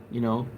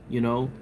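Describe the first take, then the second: No difference in how they are said.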